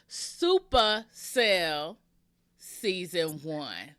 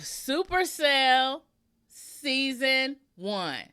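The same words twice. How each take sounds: First: It is said with gangster swagger and attitude. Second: It is said plainly, without swagger. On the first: The speaker calls it right. "How about that?" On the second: The speaker calls it wrong. "Did I not say that with enough gangster"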